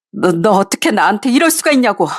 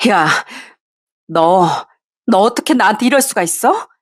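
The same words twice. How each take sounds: First: Stammered, pressing accusation falling at the end; bitter accusation. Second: Trembling fury. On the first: Wife repeating her accusation, falling and bitter. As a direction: drive the blame home, stress 이럴. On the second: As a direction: hurl the question at him, shaking with anger. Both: Acted. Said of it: "부들부들 떨면서 화를 냈습니다".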